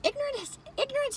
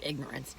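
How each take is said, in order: First: "Ignorance" tossed up much higher, quiet; questioning the word. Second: "ignorance" dropped low and much softer; hushed like a bad word. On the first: Weighing a touchy word, said high and wondering. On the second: Saying it like a bad word, low and hushed. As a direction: murmur "ignorance" as if it were a swear. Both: Shown as a demonstration. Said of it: "like it's a bad word".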